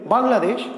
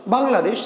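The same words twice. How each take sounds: First: The word is said in one unbroken go. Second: The same.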